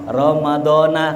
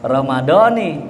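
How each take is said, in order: First: The word ends with an a vowel. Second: The word ends with an i vowel. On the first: The speaker calls it wrong. "kan begitu biasanya ya" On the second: The speaker calls it right. "Padahal yang lebih tepat apa itu?"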